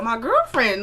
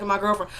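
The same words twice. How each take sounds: First: GIRLFRIEND with an exaggerated pitch swing; "girlfriend" said with too much emphasis; overdone delivery. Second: Put-on quiet, offhand "my girlfriend"; understated quote. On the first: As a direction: overplay "girlfriend" as a mock quote. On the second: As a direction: play down "girlfriend", soft and casual. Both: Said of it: "he ain't say it like that".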